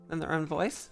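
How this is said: The voice rises at the end like a question.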